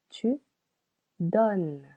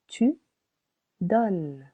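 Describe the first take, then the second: No difference in how they are said.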